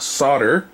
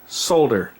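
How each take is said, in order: First: The word is said without an L sound. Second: The word is said with an L sound. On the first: The speaker calls it wrong. "trying to tell me it's solder" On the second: The speaker calls it right. "I speak it with the L pronounced"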